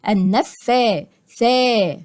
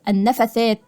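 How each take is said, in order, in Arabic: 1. الحركات بعد الفاء والثاء مُطوَّلة. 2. الحركات بعد الفاء والثاء قصيرة. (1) "ألف صغيرة تثبت حركتين" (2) "ما بقولش النفثات"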